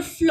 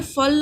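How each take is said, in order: First: फ्ल with फ running straight into ल; फ्ल as one syllable; blended consonants. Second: फल with a vowel between फ and ल; unblended reading. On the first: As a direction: join फ and ल in फ्ल. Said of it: "फ्ल हो गया". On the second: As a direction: say फल ending in ल. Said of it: "ना होकर". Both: Shown as a demonstration.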